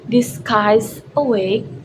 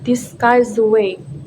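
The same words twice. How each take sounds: First: Guy's and awake are said with a break. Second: Guy's links into awake without a break.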